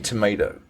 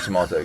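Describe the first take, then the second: First: It is said with an American pronunciation. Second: It is said with a British pronunciation. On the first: The speaker has adopted the local way of speaking. "decide to say tomato" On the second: The speaker keeps the original home way of speaking. "instead of tomato"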